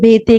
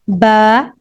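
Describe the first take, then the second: First: The letter name ends in an 'e' vowel. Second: The letter name ends in an 'a' vowel. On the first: It follows the Urdu way of naming letters. The speaker calls it wrong. "Urdu के हुरूफुल हजा पर क़ियास करते हुए ... बे-ते कर रहे होते हैं" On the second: It follows the Arabic way of naming letters. The speaker calls it right. "Arabic के अंदर ये बे-ते नहीं होता बल्कि"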